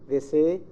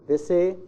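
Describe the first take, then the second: The two takes are said the same way.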